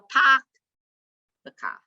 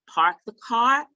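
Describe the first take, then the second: First: It is said in a Boston accent. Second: It is said in a standard accent.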